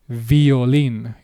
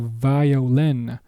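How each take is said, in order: First: The vowels stay pure and straight as in Spanish. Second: The vowels glide and bend as in English. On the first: "In Spanish, though, it is violin" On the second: "You would say violin"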